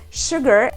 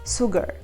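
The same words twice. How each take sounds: First: It starts with an sh sound. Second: It starts with an s sound. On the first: "pronounce sugar" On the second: "in my language there is no sh"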